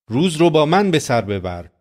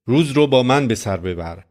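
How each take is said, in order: First: من lifted higher, the key word; Jesus inviting, weight on من; stress on من. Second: Said in the usual way. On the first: Shown as a demonstration. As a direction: lean hard on من, not روز. Preacher repeats Jesus's words.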